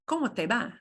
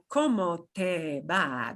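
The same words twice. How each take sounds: First: The words are said quickly and run together. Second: The words are said slowly and separately. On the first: The speaker calls it right. "They're going to run it all together like this" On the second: The speaker calls it wrong. "nobody is going to say that slowly like"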